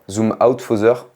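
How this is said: It is said with a French accent.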